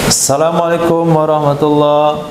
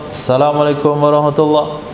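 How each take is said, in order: The two takes are said the same way.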